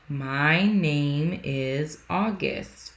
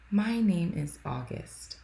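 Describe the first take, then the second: First: It is said louder and clearer. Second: It is mumbled quietly.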